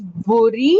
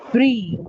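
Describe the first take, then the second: First: "buri" as BO-ree, two syllables; "buri" in two beats, rising; wrong pronunciation. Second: "brie" as one syllable, BREE; "brie" with B and R run together; correct pronunciation. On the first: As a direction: say "buri" with a full vowel after B. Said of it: "You call it as". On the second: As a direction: say "brie" slowly as bree, falling. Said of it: "pronounced as brie". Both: Shown as a demonstration.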